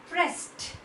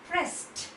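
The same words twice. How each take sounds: The two takes are said the same way.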